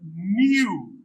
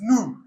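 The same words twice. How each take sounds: First: A 'y' sound comes before the vowel. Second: No 'y' sound comes before the vowel. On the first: This is the British pronunciation. "is British" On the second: This is the American pronunciation. "American is"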